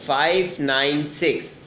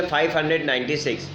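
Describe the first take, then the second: First: "five nine six" said digit by digit; "five", "nine", "six" each said apart, one by one; digits read separately. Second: "five hundred ninety six" read as one whole number; the decimal digits run together as "five hundred ninety six"; wrong reading. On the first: Teacher shows students the right way, "five nine six" digit by digit. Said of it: "अलग-अलग पढ़ेंगे". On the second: Teacher shows students the wrong way, "five hundred ninety six" as one number. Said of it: "इसको हम five hundred ninety six नहीं पढ़ेंगे". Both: Shown as a demonstration.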